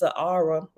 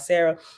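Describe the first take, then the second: First: The name is said with three syllables, Sahara. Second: The name is said with two syllables, Sarah. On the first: "actually it's Sahara" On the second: "but I just pronounce it now, Sarah"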